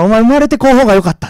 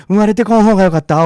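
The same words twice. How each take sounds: First: Louder and higher, menacing crone; escalating curse. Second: Put-on louder sinister old crone; creepy old woman. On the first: Retold or imitated. Old woman presses the curse on the girl, rising menace. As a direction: build the curse to a vicious peak. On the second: Old woman whispers a curse in the girl's ear, sinister. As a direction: hiss the curse with menace.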